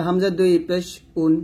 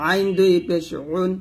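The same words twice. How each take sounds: First: Said in the usual way. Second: আইন and উন squeezed in the throat; Arabic ayn pushed out in আইন; pressed ayn. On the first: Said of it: "এটা normal ভাবে". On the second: Shown as a demonstration. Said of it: "এটা হবে চাপ দিয়ে".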